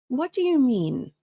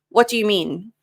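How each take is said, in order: First: It sounds calm and relaxed. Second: It sounds tense and abrupt. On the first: The speaker calls it right. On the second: The speaker calls it wrong.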